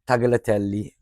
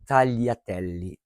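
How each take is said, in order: First: The G is pronounced as a hard sound. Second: The G is silent, blending into the L. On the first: The speaker calls it wrong. "it's not tagliatelle" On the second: The speaker calls it right. "the G is silent"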